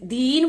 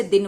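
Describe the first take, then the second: First: दीन with a long held ee; drawn-out vowel. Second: दिन with a short, easy i; short vowel. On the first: Teacher contrasting दीन with दिन, long stretched vowel. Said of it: "खींचकर बोलेंगे". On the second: Teacher contrasting दिन with दीन, short relaxed vowel. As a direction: keep the vowel in दिन brief. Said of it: "आराम से इसे बोलेंगे". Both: Shown as a demonstration.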